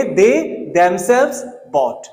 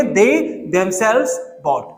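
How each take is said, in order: First: Very slow, ^themselves leaned on; slow drilled example. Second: Very slow, dragged out; slow drilled repeat. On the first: Teacher drilling class slowly: slow emphatic example. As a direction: spell it out slowly for students. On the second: Teacher repeating example to class: very slow drill. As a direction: drag each word out for students. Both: Shown as a demonstration. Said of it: "क्या बोलेंगे?".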